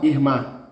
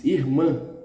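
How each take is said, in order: First: "irmã" wrongly ending in open oral "ma"; "irmã" with a plain open final a; without the tilde. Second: "irmã" with a nasalised final ã; muffled nasal vowel closing "irmã"; nasal ending. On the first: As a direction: say "irmã" as "irma", no nasality. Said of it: "is not irmã". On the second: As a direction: end "irmã" through the nose. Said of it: "It's irmã". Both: Shown as a demonstration.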